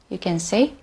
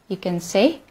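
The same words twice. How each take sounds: Both takes have the same delivery.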